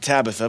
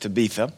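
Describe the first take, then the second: First: The name is said with an English pronunciation. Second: The name is said with a Greek pronunciation. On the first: "we pronounce it Tabitha" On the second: "but the Greek is Tabitha"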